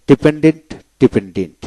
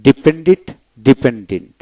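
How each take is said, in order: Both takes have the same delivery.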